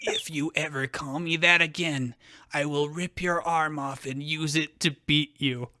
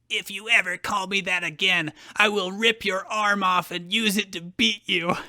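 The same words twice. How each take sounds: First: It is said in a deadly calm voice. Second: It is said without deadly calm.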